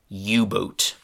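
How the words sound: It is said with an English pronunciation. "this U-boat got a different kind of English pronunciation"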